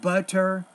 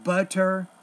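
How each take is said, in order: First: The middle consonant is a clear T. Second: The same.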